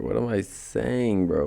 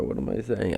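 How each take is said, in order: First: Words stretched through a yawn. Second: Said in the usual way. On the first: Real, not acted. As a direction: talk mid-yawn, slow and drawn. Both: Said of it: "I was yawning".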